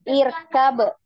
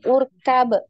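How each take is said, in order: First: The word begins with an i vowel. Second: The word begins with a u vowel. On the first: The speaker calls it right. "Kenapa Hamzah wasolnya berharokat kasroh di sini?" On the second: The speaker calls it wrong. "bukan urkab"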